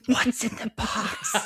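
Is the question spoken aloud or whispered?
whispered. It is spoken in a soft whisper.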